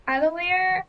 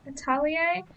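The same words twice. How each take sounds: First: "Atelier" said English-style, ending in "leer"; Anglicised pronunciation. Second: "Atelier" said French-style, ending in "yay"; French-style pronunciation. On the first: Reader unsure how people pronounce it, English-style "Atelier". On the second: Reader offering the other way, French-style "Atelier". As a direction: say "Atelier" as a-TAL-ee-ay, rising at the end. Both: Shown as a demonstration. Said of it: "I've heard it pronounced both ways".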